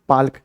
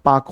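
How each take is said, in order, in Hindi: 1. K से पहले L ध्वनि सुनाई देती है। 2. K से पहले कोई L ध्वनि सुनाई नहीं देती। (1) "अंग्रेजी में पाल्क कहते हैं" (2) "उच्चारण पाक होता है"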